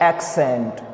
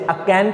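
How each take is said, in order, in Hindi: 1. बीच के व्यंजन k और s मिलकर जैसे सुनाई देते हैं। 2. बीच का व्यंजन एक अकेले k जैसा सुनाई देता है। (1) "ये वर्ड है एक्सेंट" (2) "अब यहाँ पर हम इसे अकेंट नहीं पढ़ेंगे"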